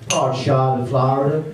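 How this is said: It is said in an American accent. "I'll try it in an American accent"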